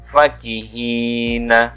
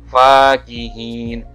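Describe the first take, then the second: First: The word ends with a short vowel. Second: The word ends on the consonant n. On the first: The speaker calls it right. "Huruf fa dibaca pendek" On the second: The speaker calls it wrong. "Bukan fakihin"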